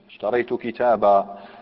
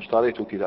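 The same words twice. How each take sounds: First: The final word ends with a long 'a' vowel. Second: The final word ends with no vowel. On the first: This follows the standard pausal rule. "المنصوب لازم نأتي بمد البدل من التنوين" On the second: This follows the dialect of the speaker's region. "ماشيين على السكون مطلقا"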